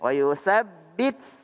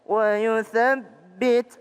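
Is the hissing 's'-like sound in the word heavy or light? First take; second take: heavy; light. First: The 'th' sound is hissed heavily, like an 's'. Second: The 'th' sound has only a slight hiss. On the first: The speaker calls it wrong. "Jangan wa yuthabbit kebanyakan. Wa yusabbit kebanyakan" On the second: The speaker calls it right. "Tapi sedikit saja"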